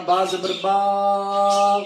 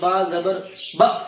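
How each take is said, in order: First: The final syllable is stretched out long. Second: The final syllable is cut off with a jerk. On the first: "ऐसे नहीं पढ़ना ... लंबा नहीं करना" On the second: "बगैर झटका दिए ... जैसे बाल लोग पढ़ते हैं"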